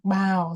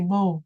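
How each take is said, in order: First: The vowel sounds like 'ow'. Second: The vowel sounds like 'oh'. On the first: It names bending forward to greet someone. The speaker calls it right. "so ow" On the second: It names the weapon or the bow tie. The speaker calls it wrong. "so you don't say bow"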